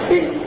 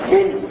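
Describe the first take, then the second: First: The word starts directly with the b sound. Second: The same.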